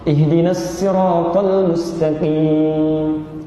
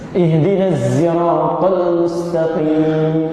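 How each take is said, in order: First: Sirat begins with a light plain s sound. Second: Sirat begins with a voiced z sound. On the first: "bisanya sin" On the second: "bisanya zai"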